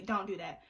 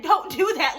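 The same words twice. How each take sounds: First: Softer, gentle asking; a softer plea to friends not to post her; respectful. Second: Louder, pushy warning; a firm scold to friends who posted her video; insistent repeat. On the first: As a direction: say it politely and low, not pushing. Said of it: "I said respectfully". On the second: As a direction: lean on it like you already said it. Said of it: "I said, "I said". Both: Retold or imitated.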